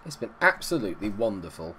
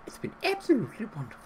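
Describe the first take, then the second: First: Said in the usual way. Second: High, quick, prim nanny lilt; Mary Poppins voice. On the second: Shown as a demonstration. Repeating the line to viewers as Mary Poppins. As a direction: chirp it like a cheerful storybook nanny. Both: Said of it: "I sounded like Mary Poppins".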